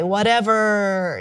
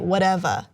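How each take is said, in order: First: It has a California accent with a long, hard R. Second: It has a New York or New Jersey accent.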